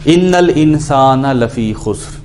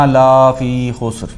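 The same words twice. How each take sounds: First: لفی said short, the لا not drawn out; slow, careful recitation with a short لفی; correct recitation. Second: لا فی drawn out long, la stretched; wrong prolonged la. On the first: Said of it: "غلط طریقے سے پروناؤنس کرے". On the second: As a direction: slowly stretch the لا in لا فی خسر. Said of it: "لا کھینچ دے". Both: Shown as a demonstration.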